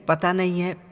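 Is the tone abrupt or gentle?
gentle. It is said softly and affectionately. The speaker calls it right. "प्यार से"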